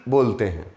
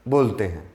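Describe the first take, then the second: The two takes are said the same way.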